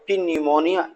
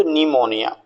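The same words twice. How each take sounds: First: "पी न्यूमोनिया" with the p sounded as a separate "pee" before "न्यूमोनिया"; wrong pronunciation. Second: "निमोनिया" starting straight on the n, no p sound at all; silent p. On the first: Teacher shows students the common mistake, p sounded in "पी न्यूमोनिया". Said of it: "Generally आप बहुत mistake करते हैं". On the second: Teacher gives students the correct "निमोनिया" with a silent p. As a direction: drop the p and say "निमोनिया". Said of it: "तो पी को छोड़ दें तो निमोनिया". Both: Shown as a demonstration.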